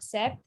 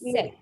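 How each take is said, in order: First: The word is said with a p sound. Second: The word is said without a p sound. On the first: The speaker calls it wrong. "It's not sept" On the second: The speaker calls it right. "it's set"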